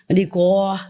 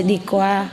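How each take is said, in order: First: "Đi qua" in the Quảng Nam accent, lightly mimicked. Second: "Đi qua" said the Southern way, plain and even; Southern pronunciation. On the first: Teacher teasing the disciple's dialect for students, light Quảng Nam accent. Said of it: "in his area". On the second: Teacher showing students the Southern way to say it, Southern pronunciation. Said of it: "And we say". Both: Shown as a demonstration.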